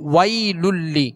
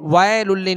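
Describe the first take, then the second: First: The first vowel is short, gliding softly into i. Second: The first vowel is drawn out as a long aa. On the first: The speaker calls it right. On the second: The speaker calls it wrong.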